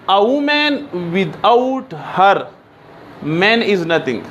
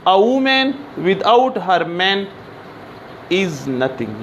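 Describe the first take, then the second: First: "A woman without her", long pause, "man is nothing"; slow reading split between "her" and "man"; pause after HER. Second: Slow reading split after "man"; pause after MAN. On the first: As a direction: break before "man" so it starts a new phrase. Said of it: "इसका मतलब है कि औरत के बग़ैर". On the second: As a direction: keep "without her man" together, break, then drop on "is nothing". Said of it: "यानी एक औरत बग़ैर मर्द के कुछ नहीं है". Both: Shown as a demonstration.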